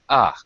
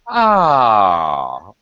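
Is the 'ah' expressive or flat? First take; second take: flat; expressive. First: It is said flatly, with little pitch movement. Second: It is said warmly, with lively pitch movement. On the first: The speaker calls it wrong. "You're not going to say" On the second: The speaker calls it right. "Don't be shy to use your intonation"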